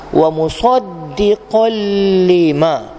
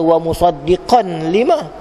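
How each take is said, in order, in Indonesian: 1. Bunyi n menyatu ke dalam l setelahnya. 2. Bunyi n terdengar sebelum l. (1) "hilangkan bunyi idgham apa tanwin dalam huruf lam"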